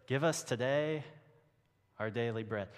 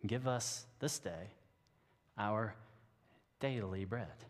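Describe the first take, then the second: First: "us today" and "daily" leaned on; stress the redundancy. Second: "this day" and "daily" each given weight, with pauses between "Give us this day", "our" and "daily bread"; slow pointed reading. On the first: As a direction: let "today" and "daily" sound doubled up. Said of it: "no one would talk like that". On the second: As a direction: read it slowly so "this day" and "daily" clash. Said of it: "it's very, uh, redundant". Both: Shown as a demonstration.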